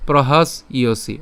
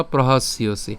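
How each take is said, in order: First: "প্রহাস ইয়সি" with a break after "প্রহাস"; broken into parts. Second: "প্রহাস ইয়সি" run together as one word; joined up. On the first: Teacher offering learners the easier way, "প্রহাস ইয়সি" in separate pieces. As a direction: say "প্রহাস", stop, then "ইয়সি". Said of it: "এভাবে উচ্চারণ করতে পারেন ভেঙে ভেঙে". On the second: Teacher giving the second option, "প্রহাস ইয়সি" joined smoothly. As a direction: link "প্রহাস" straight into "ইয়সি" without a break. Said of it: "অথবা একসাথে উচ্চারণ করতে পারেন". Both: Shown as a demonstration.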